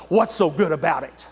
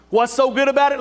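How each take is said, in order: First: Low, sour grumble; a grouch brushing off the greeting; lightly voiced grumpy stranger; grumpy reply. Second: Preacher's rhetorical challenge. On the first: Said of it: "they'll say". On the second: Acted. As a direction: take up the question boldly. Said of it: "Let me tell you".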